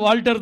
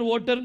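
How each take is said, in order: First: The name is said with an L sound. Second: The name is said without an L sound. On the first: The speaker calls it right. "அது வால்டர் தான்" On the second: The speaker calls it wrong. "वोटर वोटर கூப்பிட்டா நான் ஒத்துக்கிட மாட்டேன்"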